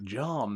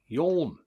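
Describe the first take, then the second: First: The name begins with a J sound. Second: The name begins with a Y sound. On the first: The speaker calls it wrong. "I think it's John" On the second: The speaker calls it right. "it's yawn"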